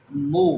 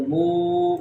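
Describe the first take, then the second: First: مو with a short, unstretched u; short vowel. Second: مو with a long drawn-out oo; long vowel. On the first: Teacher shows learners a bare pesh, مو kept short. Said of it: "یہاں ہم اس کو لمبا نہیں کر". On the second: Teacher shows learners wao madda, مو held long. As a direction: stretch the vowel of مو. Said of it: "ہم اس کو لمبا کریں گے". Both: Shown as a demonstration.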